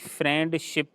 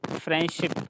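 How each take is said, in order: First: The d sound is pronounced. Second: The d sound is silent. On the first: The speaker calls it wrong. "वो भी फ्रेंडशिप नहीं है" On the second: The speaker calls it right. "N के बाद जो डी है that is silent"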